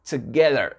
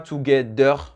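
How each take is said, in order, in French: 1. La consonne du milieu est un son 'th' doux. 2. La consonne du milieu est un D dur.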